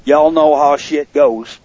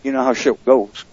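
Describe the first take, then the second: First: Slow southern drawl; southern accent. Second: Said in the usual way. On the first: Real, not acted. Host shrugs off a mishap to the listeners, southern accent. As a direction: stretch it out in a slight southern accent. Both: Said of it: "That's a southern accent".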